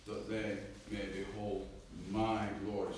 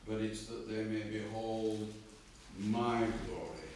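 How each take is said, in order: First: Slow verse reading with the punch on "my"; stress on MY. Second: Slow, with "my" hit loud in "my glory"; emphatic "my" in a slow reading; stress on MY. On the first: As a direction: weigh down on "my" before "glory". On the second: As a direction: lean hard on the word "my". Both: Shown as a demonstration. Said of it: "That's why I'm emphasising".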